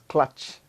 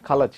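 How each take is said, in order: First: The k and l sounds form a cluster. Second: An extra vowel separates the k and l sounds. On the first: The speaker calls it right. "it is clutch" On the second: The speaker calls it wrong. "some of them pronounce the word clutch as kalach"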